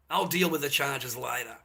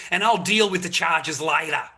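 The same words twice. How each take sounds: First: Quieter repeat. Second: Said in the usual way. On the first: Real, not acted. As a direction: lower and softer, said to himself.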